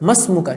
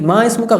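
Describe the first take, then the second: First: Ma runs straight into the s, dropping the i. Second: Ma and ismuka are said as separate words. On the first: The speaker calls it right. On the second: The speaker calls it wrong.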